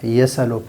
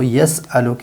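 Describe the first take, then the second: First: The s runs straight into the vowel, no stop. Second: A glottal stop separates the s from the vowel. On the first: "यस अलो पढ़ना ये जायज़ है" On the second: "यस अलो की जगह पर"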